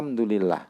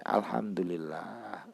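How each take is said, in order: First: It is said casually, as a routine formality. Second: It is said warmly, with deep sincere feeling. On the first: The thanks is only a ritual. The speaker calls it wrong. "rasa alhamdulillahnya hanya seremonial" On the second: The thanks truly comes from the heart. The speaker calls it right. "alhamdulillah yang betul-betul berangkat dari hati dihayati"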